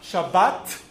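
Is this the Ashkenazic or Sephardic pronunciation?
Sephardic. It is said the Sephardic way, ending in t.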